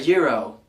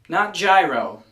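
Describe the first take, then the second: First: It is said the foreign way, unlike gyroscope. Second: It starts like the word gyroscope. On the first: The speaker calls it right. "a foreign word intended to be pronounced as such" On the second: The speaker calls it wrong. "It's not a gyroscope"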